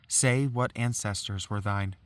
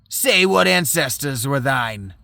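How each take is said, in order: First: It is said in the reader's own voice. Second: It is said in a put-on Farinata voice.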